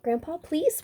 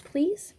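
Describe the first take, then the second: First: High pleading "please" with a lift; begging. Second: "please" even higher, rising; begging harder. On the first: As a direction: ask sweetly, voice high and rising. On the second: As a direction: push the plea up one more step. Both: A narrator's reading. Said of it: "begged the biggest baby".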